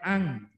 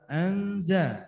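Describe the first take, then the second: First: The nasal sound is ng-like. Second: The nasal sound is n-like. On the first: The speaker calls it wrong. "bukan ang" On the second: The speaker calls it right. "Wa anzala minas sama anza"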